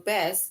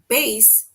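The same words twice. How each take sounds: First: The vowel rhymes with the word grass. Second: The vowel rhymes with the word case. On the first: It names a kind of fish. "it rhymes with grass" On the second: It names the largest string instrument. "it basically rhymes with case"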